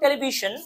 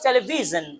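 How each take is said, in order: First: It is said with Bengali-style pronunciation. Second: It is said with English-style pronunciation. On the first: The speaker calls it wrong. "it's not television" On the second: The speaker calls it right. "it's television"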